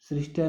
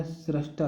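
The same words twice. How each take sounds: First: सृष्टा with "sri", srish-ta; wrong form pronounced. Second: सृष्टा said with "sra", srash-ta; correct pronunciation. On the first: Teacher rejecting a misspelling, wrong form sounded out. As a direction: say सृष्टा with an i after the r. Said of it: "सृष्टा नहीं होता". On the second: Teacher giving the right spelling, correct form sounded out. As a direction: say सृष्टा with an a after the r, not i. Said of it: "सृष्टा होता है". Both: Shown as a demonstration.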